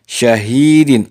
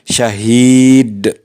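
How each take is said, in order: First: The word ends with an -in sound. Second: The word ends on a bare d sound. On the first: The word is read without stopping. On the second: The reader stops at this word. "Apabila diwakafkan dibaca syahid"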